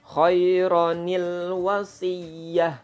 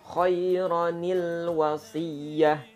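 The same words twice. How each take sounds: First: The first word ends in 'ronil' before wasiyah. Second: The first word ends in 'ronil' before wasiyah.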